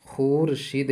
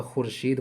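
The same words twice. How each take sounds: First: खुर्शीद with long oo, khoor-sheed; as written. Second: खुर्शीद with short u, khur-sheed; silent waw. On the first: Teacher quotes the spelling, खुर्शीद as khoor-sheed. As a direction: stretch the first syllable of खुर्शीद to khoor. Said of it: "लिखा हुआ है". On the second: Teacher gives the correct reading, खुर्शीद as khur-sheed. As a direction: keep the first syllable of खुर्शीद short. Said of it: "तो खुर्शीद पढ़ेंगे". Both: Shown as a demonstration.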